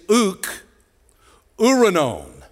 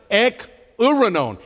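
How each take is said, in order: First: "uk" said with an uh vowel before "uranon"; mispronounced Greek. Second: "Ek" with a clear eh vowel, stress falling on "uranon"; corrected Greek. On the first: Preacher's first stab at the Greek, saying "uk" not "ek". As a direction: say "uk" like "uck", then "uranon". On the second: Preacher fixing his Greek, saying "Ek" properly. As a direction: open with a crisp "Ek", then lean into "uranon". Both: Shown as a demonstration. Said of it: "Ek is out of".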